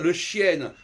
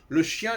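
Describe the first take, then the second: First: Chien ends with a clearly pronounced n consonant. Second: Chien ends with a nasal vowel and no n. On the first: The speaker calls it wrong. "Au lieu de dire le chienne" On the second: The speaker calls it right. "nous en français, on doit dire le chien"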